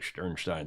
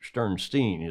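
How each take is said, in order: First: The name is pronounced the German way. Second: The name is pronounced the English way. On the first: "the German pr- pronunciation" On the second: "is how he pronounces it"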